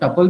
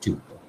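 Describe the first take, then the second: First: The first syllable sounds like 'tup'. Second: The first syllable sounds like 'tyoo'. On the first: "कुछ लोग इसको टपल भी बोलते हैं" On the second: "this is ट्यूपल"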